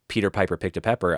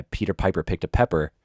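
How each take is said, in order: First: P and B bursts into the mic; popping plosives. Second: Said in the usual way. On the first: Shown as a demonstration. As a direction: spit Peter Piper straight into the mic. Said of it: "I'm, like, right over it". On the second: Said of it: "notice how I'm not, like, right in front of the mic".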